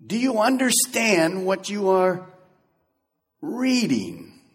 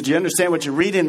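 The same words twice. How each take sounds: First: Slow, careful, each word laid out; slow gentle question. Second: Fast, run together as a plain quote; quick read-through. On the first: Philip asking the reader gently and slowly. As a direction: ask it patiently, slowly. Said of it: "Notice what Philip does". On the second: Preacher rereading Philip's question quickly in passing. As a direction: rattle it off quickly. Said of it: "He says". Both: Acted.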